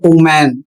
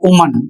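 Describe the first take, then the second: First: The first vowel is a long, different sound. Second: The first vowel is a short oo sound. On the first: The speaker calls it wrong. "जबकि यह गलत है" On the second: The speaker calls it right. "छोटा ऊ के रूप में होता है"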